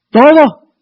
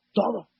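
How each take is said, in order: First: Sudden loud, high burst; forceful demand. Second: Soft, understated single word; hushed demand. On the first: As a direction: thunder it out as an absolute demand. Same demand repeated at full force. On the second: Preacher repeats God's demand, softly first. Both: Acted.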